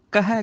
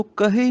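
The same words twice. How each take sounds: First: ਕਹੈ ending in an open "ai"; open final vowel. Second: ਕਹੇ ending in a close "ay"; wrong final vowel. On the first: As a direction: say ਕਹੈ as "ka-hai". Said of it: "ਕਹਿਣਾ ਹੈ". (ਕਹੈ, ਅੰਤ ਵਿੱਚ ਦੁਲਾਵਾਂ ਦੀ ਆਵਾਜ਼) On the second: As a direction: say ਕਹੇ as "ka-hay". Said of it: "ਕਹੇ ਨਹੀਂ ਕਹਿਣਾ". (ਕਹੇ, ਅੰਤ ਵਿੱਚ ਲਾਂ ਦੀ ਆਵਾਜ਼) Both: Shown as a demonstration.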